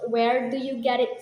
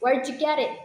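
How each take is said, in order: First: Each word is said slowly and fully. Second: The words run together in a reduced form. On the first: The speaker calls it wrong. "No people actually pronounce where do you get it slowly" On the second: The speaker calls it right. "People actually say like where'd you get it"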